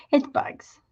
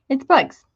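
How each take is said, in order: First: Whispered "It's bugs." breathless and hushed. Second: Said in the usual way. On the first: Retold or imitated. Host whispering her disbelief at opening the kit. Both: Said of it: "I was like".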